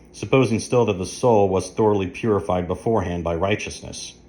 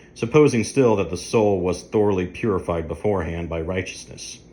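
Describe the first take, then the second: No difference in how they are said.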